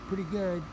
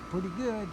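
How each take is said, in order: Both takes have the same delivery.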